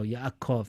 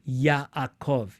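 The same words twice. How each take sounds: First: It is said quickly, the middle sound silent. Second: It is said slowly, syllable by syllable. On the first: "This this should be pretty silent though" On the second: "You could pronounce it slowly"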